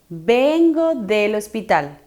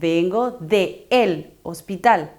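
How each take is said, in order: First: The preposition and article merge into one word. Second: The preposition and article are said as two words. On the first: The speaker calls it right. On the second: The speaker calls it wrong.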